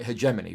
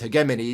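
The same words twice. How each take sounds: First: It has the American pronunciation. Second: It has the British pronunciation. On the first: "it's more the American pronunciation of the word" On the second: "is the British pronunciation of the word"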